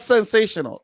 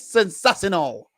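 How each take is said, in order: First: It is said with a plain English pronunciation. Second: It is said with a Spanish-style pronunciation. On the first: The speaker calls it wrong. "It's not sensational" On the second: The speaker calls it right. "It's sensational. That's because, you know, Pep is Spanish"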